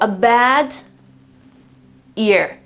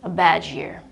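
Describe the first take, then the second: First: The d and y sounds stay separate. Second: The d and y merge into a j sound. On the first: The speaker calls it wrong. "You will never or almost never uh, hear a native speaker talking like this" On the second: The speaker calls it right. "They would rather say a bad year"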